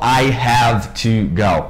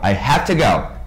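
First: Each word of 'have to' is said fully. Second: 'Have to' blends into 'hafta', ending in 'a'. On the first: The speaker calls it wrong. "Eles não falam I have to go" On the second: The speaker calls it right. "E termina com esse som de A mesmo"

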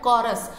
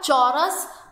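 First: The word begins with a k sound. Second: The word begins with a ch sound. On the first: The speaker calls it right. "यहाँ पर pronunciation है कॉरस" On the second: The speaker calls it wrong. "It's not a चौरस, च सी एच को च नहीं कहोगे"

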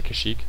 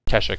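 First: The name is said like 'Kashyyyk'. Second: The name is said like 'Keshek'. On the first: The speaker calls it wrong. "Did I say Kashyyyk?" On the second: The speaker calls it right. "I'm pretty sure it's pronounced Keshek"

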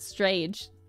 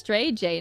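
First: The name is said as one single syllable. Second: The name is said as two separate parts. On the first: The speaker calls it wrong. "not Strage" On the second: The speaker calls it right. "Mine's also pronounced as Stray J"

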